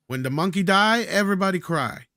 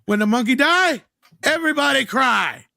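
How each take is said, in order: First: Put-on higher, louder accented movie-mogul quote; Dino De Laurentiis. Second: Loud, high, hammed-up Italian producer; Dino De Laurentiis. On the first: Podcaster quoting a film producer's famous line, mock accent. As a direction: quote the producer in broken English, pitched up. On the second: Podcaster repeating the producer's line, loud mock Italian accent. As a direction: holler the quote in broken English, stretching the end. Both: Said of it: "The best Dino De Laurentiis quote".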